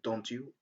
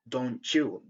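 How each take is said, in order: First: The t and y sounds stay separate. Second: The t and y merge into ch. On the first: The speaker calls it wrong. "Some people say don't you, which is not very correct" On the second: The speaker calls it right. "It's better to say"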